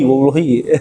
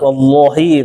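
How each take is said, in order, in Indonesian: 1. Huruf L dalam Allah dibaca tipis. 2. Huruf L dalam Allah dibaca tebal. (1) "Itu tipis tuh Allahnya itu" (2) "Kalau tebal, ... itu tebal tuh"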